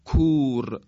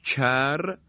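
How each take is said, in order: First: "کور" with a plain, unsoftened k; careful demo of back k in "کور"; backer kaf. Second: "کر" with a palatal k, near ch, raised pitch; careful demo of front k in "کر"; fronted kaf. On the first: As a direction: keep the k of "کور" back from the palate. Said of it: "به کاف صحیح نزدیکتره". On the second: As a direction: soften the k of "کر" onto the palate. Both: Shown as a demonstration.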